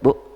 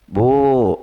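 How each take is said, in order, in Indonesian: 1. Kata ini diucapkan pendek. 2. Kata ini diucapkan panjang. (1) "Kalau dekat, Bu, ah udah" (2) "Kan kalau manggil yang panjang mah jauhnya. Bu, itu jauh itu"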